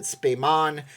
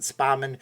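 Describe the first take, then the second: First: "Spayman" with ay as in say; trying a pronunciation. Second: "Spahman" with an open a as in spa; trying a pronunciation. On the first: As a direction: say the name as "Spayman", SPAY-man. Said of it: "or is it Spayman". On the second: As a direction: say the name as "Spahman", SPAH-man. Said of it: "or is it Spahman". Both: Shown as a demonstration.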